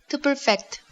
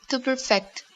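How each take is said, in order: Both takes have the same delivery.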